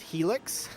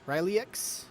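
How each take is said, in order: First: The word begins with an H sound. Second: The word begins with an R sound.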